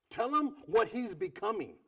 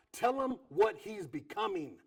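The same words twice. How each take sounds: The two takes are said the same way.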